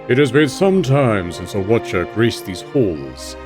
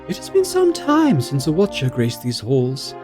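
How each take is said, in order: First: It is said in a deep voice. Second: It is said in an ordinary voice.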